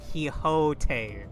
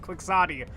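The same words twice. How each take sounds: First: It is pronounced the Spanish way. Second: It is pronounced the English way. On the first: The speaker calls it right. "It's Quixote, alright?" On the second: The speaker calls it wrong. "I've heard people pronounce it Quixote, and it drives me up a wall"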